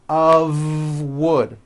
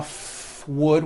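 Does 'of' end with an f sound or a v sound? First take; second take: v sound; f sound. First: The word 'of' ends with a voiced v. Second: The word 'of' ends with an unvoiced f. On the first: The speaker calls it right. "It's all voiced and it's all connected" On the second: The speaker calls it wrong. "It's not a f wood with an unvoiced F"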